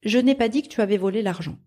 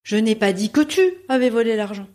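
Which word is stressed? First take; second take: none; tu. First: It is said neutrally, with no word stressed. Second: The stress is on the word tu.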